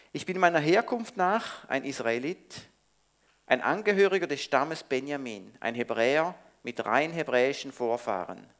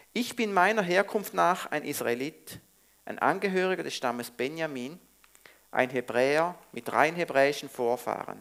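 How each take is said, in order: Both takes have the same delivery.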